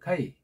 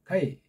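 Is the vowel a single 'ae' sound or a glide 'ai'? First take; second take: glide ai; glide ai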